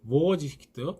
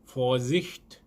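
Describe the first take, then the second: First: The word begins with a v sound. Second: The word begins with an f sound. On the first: The speaker calls it wrong. "하시면 안 됩니다" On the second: The speaker calls it right. "이런 발음입니다"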